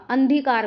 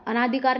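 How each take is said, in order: First: अंधिकार as अनधिकार, no long naa; correct form. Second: अनाधिकार with a long naa; mistaken extra vowel. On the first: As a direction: run an straight into dhikaar in अंधिकार. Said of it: "अंधिकार होता है". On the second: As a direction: say अनाधिकार as a-NAA-dhi-kaar. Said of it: "अनाधिकार नहीं होता". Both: Shown as a demonstration.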